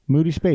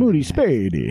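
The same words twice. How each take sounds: First: The name is said in a plain accent. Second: The name is said with an Italian-sounding accent. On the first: The speaker calls it wrong. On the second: The speaker calls it right.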